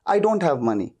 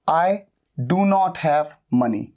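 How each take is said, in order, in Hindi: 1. 'do not' शब्द एक ही syllable में मिल जाते हैं। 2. 'do not' शब्द पूरे और अलग-अलग बोले जाते हैं।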